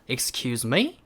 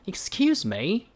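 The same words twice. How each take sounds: First: It is said in an American accent. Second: It is said in a British accent. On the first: "라고 하는 미국식이 있고요" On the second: "라고 하는 영국식이 있어요"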